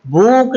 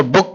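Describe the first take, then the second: First: Vowel of book drawn out, higher; wrongly long "book". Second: Vowel of book kept short. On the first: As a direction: stretch the oo in book, as the wrong reading. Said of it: "ऐसे लंबा नहीं पढ़ेंगे". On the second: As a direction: say book with a quick oo, the correct reading. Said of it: "short पढ़ेंगे". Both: Shown as a demonstration.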